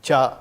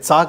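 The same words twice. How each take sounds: First: The syllable starts with a palatal ch sound. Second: The syllable starts with a hissing ts sound. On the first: The speaker calls it right. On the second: The speaker calls it wrong.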